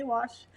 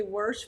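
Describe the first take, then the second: First: Said in the usual way. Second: "worsh" with an r before the sh. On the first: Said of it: "Nope, I say". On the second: Shown as a demonstration. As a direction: say "worsh" with an r sound. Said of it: "Heather, do you say".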